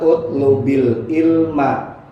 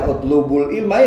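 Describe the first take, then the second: First: The first word ends with an 'i' vowel. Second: The first word ends with a 'u' vowel. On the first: The speaker calls it right. "yang menurut qaidahnya adalah utlubil ilma" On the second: The speaker calls it wrong. "Jangan dibaca utlubul ilma"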